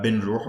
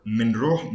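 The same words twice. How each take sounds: First: بنروح starting with a b-n cluster; b-n prefix. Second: منروح starting with an m-n cluster; m-n prefix. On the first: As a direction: say بنروح with b before the n. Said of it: "So instead of B". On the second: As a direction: say منروح with m before the n. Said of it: "M, N, they say B". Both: Shown as a demonstration.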